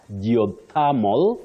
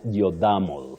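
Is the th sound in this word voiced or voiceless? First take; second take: voiceless; voiced. First: The th is voiceless, as in thin. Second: The th is voiced, as in this. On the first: The speaker calls it right. "in this one, you say tha. Tha, not the" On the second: The speaker calls it wrong. "not geothermal"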